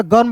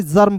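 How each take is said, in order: First: The misreading गर्म, g as in go; गर्म starting on hard g. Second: जर्म starting with j, not hard g; j sound in जर्म. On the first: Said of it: "गर्म पढ़ें कि जर्म". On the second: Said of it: "जी का उच्चारण ज के रूप में". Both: Shown as a demonstration.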